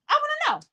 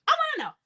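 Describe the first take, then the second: First: Much higher, sing-song "I wanna know"; high mocking demand. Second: Again way up, sing-song "I wanna know"; high mocking repeat. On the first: Mocking the mother's testimony, high sing-song. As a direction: tease the question up high. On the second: Mocking the mother's testimony, high sing-song repeat. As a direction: echo it teasingly high. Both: Real, not acted.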